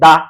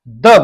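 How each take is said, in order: First: It ends in a long 'aa' vowel. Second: It ends in a short 'a' vowel. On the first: The speaker calls it wrong. "अब लिखा द है, बोलते हैं दा" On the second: The speaker calls it right. "सिर्फ और सिर्फ आपको द बोलना है"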